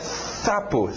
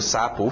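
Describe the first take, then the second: First: The first sound is a lisped, tongue-muffled S. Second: The first sound is a normal hissing S. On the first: "a pessoa que tem a língua presa dizendo sapo, fica sapo" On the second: "S de sapo"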